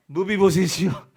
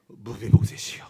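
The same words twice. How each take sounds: First: Said in the usual way. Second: "무비보셋이요" said much lower and full of pity, the first sound softened toward b; tender call. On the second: Shown as a demonstration. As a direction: call "무비보셋이요" low and aching, as if to a lost son. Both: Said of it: "그래서 이걸 어떻게 말해요?".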